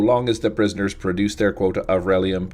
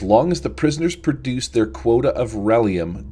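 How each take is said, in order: First: It is read in a put-on robot voice. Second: It is read in a plain, natural voice.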